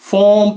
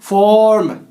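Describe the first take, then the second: First: The R sound is silent. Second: The R sound is pronounced. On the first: The speaker calls it right. "फॉर्म पढ़ेंगे" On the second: The speaker calls it wrong. "ना कि फॉर्म"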